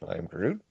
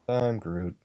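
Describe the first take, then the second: First: It is said in a fearful voice. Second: It is said in a sad voice. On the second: "What about Sad Groot?"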